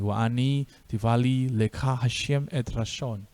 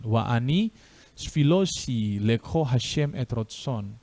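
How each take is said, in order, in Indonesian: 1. Ada vokal a dan bunyi t, gaya Sefardi. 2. Ada vokal o dan bunyi s, gaya Ashkenazi.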